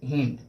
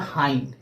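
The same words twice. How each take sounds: First: हिंड with a short "i" vowel; wrong short I. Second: हाइंड with an "eye" vowel; long I pronunciation. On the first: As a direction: say हिंड as "hinned". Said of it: "न कि हिंड". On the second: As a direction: say हाइंड to rhyme with "find". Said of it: "इसका जो pronunciation होता है". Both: Shown as a demonstration.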